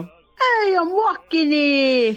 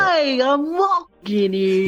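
First: Drawn-out, higher mock New York accent. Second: Slow attempt at Southern that stays New York accent; failed Southern accent. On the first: Guest showing the host her Brooklyn voice, mock New York accent. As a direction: ham up a slow New York street shout accent. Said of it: "I could do the, you know". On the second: Guest attempting Southern on request, slow New York-sounding accent. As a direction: try a Southern drawl but land on a New York accent. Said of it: "try your best to do a Southern accent". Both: Shown as a demonstration.

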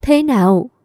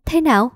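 First: Pressing question. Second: Quick, startled ask, a bit higher; hurried question. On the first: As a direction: press him hard for the answer. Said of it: "tôi hỏi dồn". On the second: Wife to husband after shock news, hurried question. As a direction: blurt it out fast in alarm. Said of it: "Tôi vội vàng hỏi". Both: A narrator's reading.

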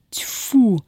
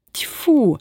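First: A short contemptuous spit; spitting. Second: A furious contemptuous spit; fierce spit. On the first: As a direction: spit the word out in disgust. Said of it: "сплюнула Устинья". (сплёвывает с презрением) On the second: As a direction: spit it out ferociously. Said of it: "свирепо сплюнула Устя". (свирепо сплёвывает) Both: Acted.

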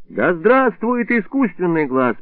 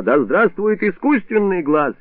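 First: Echoing the slogan. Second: Slow, raised rallying cry; drunken proclamation. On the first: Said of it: "подхватил я провозглашённый врачом лозунг". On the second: Drunk doctor proclaiming his slogan to patients, slow and high. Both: A narrator's reading.

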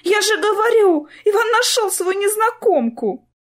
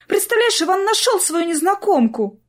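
First: High, louder, fretful repeat; vexed repeat. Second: High, excited rush of news; blurted out. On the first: Sister repeating her news to Clara, high and vexed. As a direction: say it again, fed up and upset. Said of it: "с досадой повторила Полина". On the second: Sister bursting with news to Clara, high excited blurt. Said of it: "выпалила Полина". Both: A narrator's reading.

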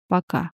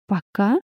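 First: "Пока" low and falling, as a statement. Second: "Пока" rising sharply at the end; echoed question. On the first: Arthur qualifies his refusal to the heroine, low falling "Пока". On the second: Heroine catches Arthur's word, echoing "Пока" with a questioning rise. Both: A narrator's reading.

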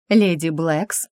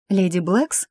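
First: Composed reply, "леди" lifted gently; calm mirrored greeting. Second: Startled question rising on Блэкс; gasping surprise. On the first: Mother-in-law calmly returns the greeting, composed. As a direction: answer "Леди Блэкс" evenly, stately. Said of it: "отзеркалила приветствие". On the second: Girl spots her mother-in-law, startled rising gasp. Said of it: "ахнула я". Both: A narrator's reading.

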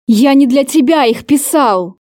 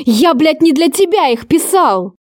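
First: A mildly voiced angry hiss through the teeth; hissed in anger. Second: Explosive outburst. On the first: Angry lover confronting her over the read letters, hissed lightly. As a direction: hold the fury in, let it leak out as a hiss. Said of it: "С шипением выдохнул Кейт". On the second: Acted. Lover finally explodes at her for reading his letters, furious burst. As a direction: repeat it higher and bursting with rage. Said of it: "Взорвался он".

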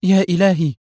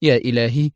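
First: High exclamation of disbelief; stunned cry. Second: Restrained gasp of amazement in words; astonished murmur. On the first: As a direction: cry out in shock. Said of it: "صرخت منى في ذهول". (صرخة ذهول) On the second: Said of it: "اتسعت عينا منى دهشة وهي تغمغم". (غمغمة مندهشة) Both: A narrator's reading.

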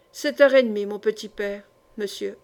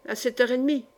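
First: Lightly voiced old woman, sure of herself; assured. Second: Said in the usual way. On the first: Old woman assures the gentleman of the hour, confidently. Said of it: "répondit avec assurance". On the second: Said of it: "lui dis-je en me levant".

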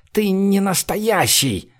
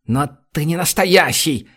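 First: Slow, much higher, cowering in horror; a frightened man shrinks back, stretching ты не настоящий; terrified. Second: Frightened mumble of Но ты не настоящий, less high; scared mumbling. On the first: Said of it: "в ужасе сжался в комок". (в ужасе, медленно и высоко) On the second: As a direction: keep muttering it in fear. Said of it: "продолжал мямлить перепуганный песочник". (испуганно мямлит Но ты не настоящий) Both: A narrator's reading.

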